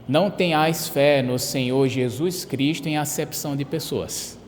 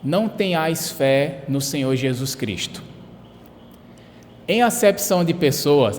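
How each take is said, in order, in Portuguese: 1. A frase continua sem ponto final depois de Cristo. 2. A voz para, com ponto final depois de Cristo. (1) "Era esse o texto" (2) "Trocou a vírgula por um ponto final"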